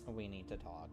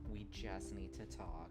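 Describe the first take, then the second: First: It sounds pointed and ominous. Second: It sounds soft and reassuring.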